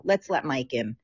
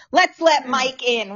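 First: Low, soft mutter to herself; muttered aside. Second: Said in the usual way. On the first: Real, not acted. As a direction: say it under your breath. Muttering to herself while admitting Mike.

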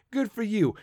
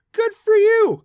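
First: Said in the usual way. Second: "good for you" much higher and louder; emphatic shout. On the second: Real, not acted. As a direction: belt out "good for you" as the punchline. Repeated good for you list.

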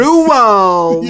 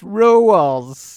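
First: "Rules" said high and loud, stretched as two syllables "ru-els"; mispronounced rules. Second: "Rules" stretched into "ru-els"; wrong pronunciation. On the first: Retold or imitated. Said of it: "She says, like". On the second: Shown as a demonstration. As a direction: say "Rules" as two syllables like she does. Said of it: "the incorrect way she says it".

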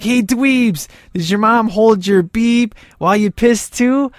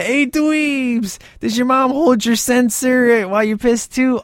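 First: Higher, mocking jeer; taunting punks. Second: Much higher put-on sneering voice; mocking punk voice. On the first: Punks in the car taunt Dean's grandma, jeering. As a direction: sneer it at the nerds. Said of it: "and they're like". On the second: Movie punks taunt the nerds, in a high put-on sneer. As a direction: jeer like a teen punk in a car. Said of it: "just the way that they say that".

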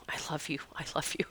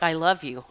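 First: Soft words that fade into a breathy whisper; fading whisper. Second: Said in the usual way. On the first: Pretend. Grateful bird thanking her, fading to a whisper. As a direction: let each repeat drop away to nothing.

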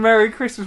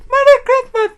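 First: Lightly imitated talking magpie; high chirpy bird greeting. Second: Louder, high squawky bird imitation; magpie voice. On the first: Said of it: "Mike the Magpie saying". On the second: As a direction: screech it like a talking magpie. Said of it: "Can we have".

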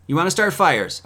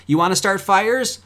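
First: "fires" dropping at the end; challenge repeated. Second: "fires" rising high at the end; higher-pitched challenge, lifting up on "fires"; challenging question. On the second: Challenge asked twice, first rising. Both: Real, not acted.

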